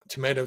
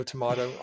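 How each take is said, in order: First: Tomato said "to-MAY-to"; long-A tomato. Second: Tomato said "to-MAH-to"; broad-A tomato. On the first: Showing both ways they say it, tomato as "to-MAY-to". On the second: Showing both ways they say it, tomato as "to-MAH-to". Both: Shown as a demonstration. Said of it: "I say it both ways".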